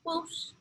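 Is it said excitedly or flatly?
flatly. It is said flatly, without excitement.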